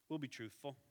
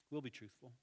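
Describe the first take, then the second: No difference in how they are said.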